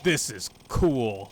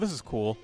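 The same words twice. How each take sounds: First: It is said in an excited, lively tone. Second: It is said in a mild, lukewarm tone. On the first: The game was genuinely thrilling. "Frontiers was completely different... See how the inflection changes?" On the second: The game was fine but not impressive. "I wasn't like blown away by it by any means"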